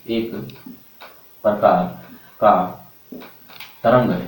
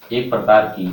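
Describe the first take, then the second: First: Each word set apart by long pauses; slow, spaced-out dictation for note-taking. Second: Said in the usual way. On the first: Shown as a demonstration. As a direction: dictate word by word so students can write. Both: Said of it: "तो लिखेंगे आप voice".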